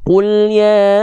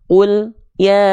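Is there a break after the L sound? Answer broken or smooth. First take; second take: smooth; broken. First: The L sound flows smoothly into ya. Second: The L sound is cut off before ya. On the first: The speaker calls it right. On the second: The speaker calls it wrong.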